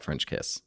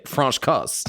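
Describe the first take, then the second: First: Said in the usual way. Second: French Kiss said the French way, as if by a Frenchman; French accent. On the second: Shown as a demonstration. Host playfully re-saying the film title in a mock French accent. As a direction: give it a jokey French accent. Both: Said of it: "Or should I say".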